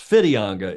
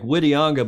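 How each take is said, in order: First: The name begins with an F sound. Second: The name begins with a W sound. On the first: "it's pronounced Fitianga in Maori. ... With an F" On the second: "it looks like Whitianga"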